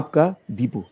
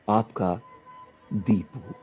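First: The first syllable of Deepu is lightly stressed. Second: The first syllable of Deepu is strongly stressed. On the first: The speaker calls it wrong. "मैं कहा आपका Deepu" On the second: The speaker calls it right. "द पे पूरा stress देके पू लाओ"

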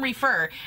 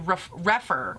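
First: The first syllable does not sound like 'ref'. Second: The first syllable sounds like 'ref' in reference. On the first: The speaker calls it wrong. "I keep calling him Refer" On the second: The speaker calls it right. "as in reference or referee. And so I think it's actually refer"

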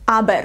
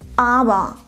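First: The final R is pronounced as a consonant. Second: The final R is vocalized, not a consonant. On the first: The speaker calls it wrong. "Es ist auf keinen Fall aber. Nein, sowas möchte ich nicht hören" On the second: The speaker calls it right. "Wir sprechen hier das R am Ende nicht aus"

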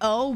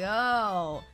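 First: The word sounds sincere and not sarcastic. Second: The word sounds sarcastic. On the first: The speaker calls it right. "I'm more so trying to say oh" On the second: The speaker calls it wrong. "it sounded like a sarcastic, like oh"

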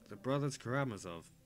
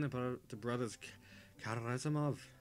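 First: It is said in the speaker's normal accent. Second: It is said in a put-on Scottish or Irish accent. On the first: "I'm just going to read this bit in a normal accent" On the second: "I'm just switching between Scottish and terrible Irish"

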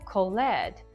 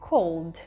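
First: The ending is a separate ed syllable. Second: The ending is a plain d sound. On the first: The speaker calls it wrong. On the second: The speaker calls it right.

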